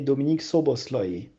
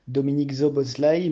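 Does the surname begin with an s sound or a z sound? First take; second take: s sound; z sound. First: The surname begins with an s sound. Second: The surname begins with a z sound. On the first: The speaker calls it right. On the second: The speaker calls it wrong. "on ne dit pas"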